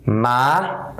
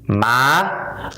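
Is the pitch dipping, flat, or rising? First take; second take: rising; rising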